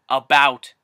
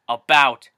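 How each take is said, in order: Both takes have the same delivery.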